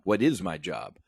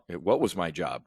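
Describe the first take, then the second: First: "is" leaned on to correct the tense; stress on IS. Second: "was" leaned on in a rhetorical question; stress on WAS. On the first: Trader correcting himself to viewers, stress on "is". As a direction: repeat the question, hitting "is". Repeats question with tense changed. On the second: Trader asking viewers what his job is, stress on "was". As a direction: ask it with the weight on "was". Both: Real, not acted.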